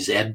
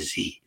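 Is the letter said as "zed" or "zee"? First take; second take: zed; zee. First: The letter is said the Canadian way, "zed". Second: The letter is said the American way, "zee".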